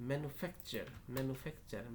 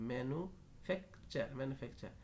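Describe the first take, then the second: No difference in how they are said.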